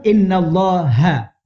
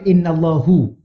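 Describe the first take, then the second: First: The word ends with an a vowel. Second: The word ends with a u vowel. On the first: The speaker calls it right. "kalau baca inna pun innallaha" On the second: The speaker calls it wrong. "jangan baca innallahu"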